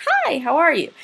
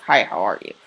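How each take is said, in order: First: Enthusiastic greeting. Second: Low, subdued greeting; low-key greeting. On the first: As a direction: greet them with a big, high swoop on "Hi". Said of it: "Or did I say, like". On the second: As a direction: say hello low and matter-of-fact. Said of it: "Did I say it like". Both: Shown as a demonstration.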